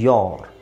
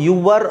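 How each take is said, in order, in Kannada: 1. ಇದು v ಇಲ್ಲದ ಒಂದೇ ಸರಾಗ ಉಚ್ಚಾರಾಂಶ. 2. ಹೆಚ್ಚುವರಿ v ಶಬ್ದ ಪದವನ್ನು ಎರಡಾಗಿ ಒಡೆಯುತ್ತದೆ. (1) "ಸರಿಯಾದ ಪ್ರೊನೌನ್ಸಿಯೇಷನ್" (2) "ಅಲ್ಲಿ ವಾ ಎಕ್ಸ್ಟ್ರಾ ಇದೆ ಅಲ್ವಾ?"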